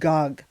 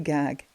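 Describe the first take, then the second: First: The vowel is a rounded 'oh' sound. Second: The vowel is an open 'ah' sound. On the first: The speaker calls it right. "It's gog" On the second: The speaker calls it wrong. "Don't say gag"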